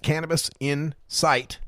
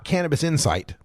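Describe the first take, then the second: First: The last part is said as two separate words. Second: The last part is run together as one word. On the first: It means cannabis is visible. The speaker calls it right. "Three words" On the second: It means cannabis understanding. The speaker calls it wrong. "It's not"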